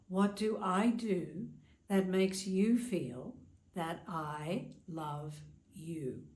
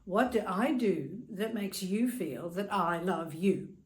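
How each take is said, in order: First: It is asked in a warm, caring tone. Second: It is asked in an aggressive, attacking tone.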